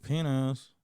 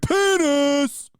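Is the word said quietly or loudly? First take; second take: quietly; loudly. First: The word is said quietly. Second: The word is said very loudly.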